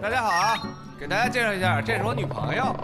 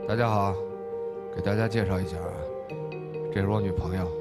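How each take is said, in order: First: The line is said in a lighter, livelier manner. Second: The line is said in a gloomy, brooding manner. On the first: The speaker is a more outgoing person. "换关宏宇" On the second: The speaker is a withdrawn, somber person. "关宏芳可能就比较那个阴郁一点吧"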